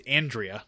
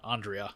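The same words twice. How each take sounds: First: "Andrea" the plain way, first A as in "cat"; Andrea with flat A. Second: "Andrea" the fancy way, open "ah" at the start. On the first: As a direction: say "Andrea" as AN-dree-uh. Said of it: "but it's Andrea, not Andrea". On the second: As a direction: say "Andrea" as AHN-dree-uh. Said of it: "We're not that fancy here". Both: Shown as a demonstration.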